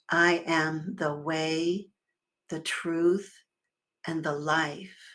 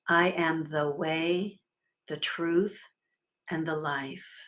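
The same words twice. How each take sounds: First: It is said with strong, owning conviction. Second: It is said plainly, without extra conviction.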